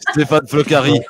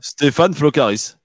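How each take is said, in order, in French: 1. Le nom de famille se termine sans aucun son S. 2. Le nom de famille se termine par un son S audible.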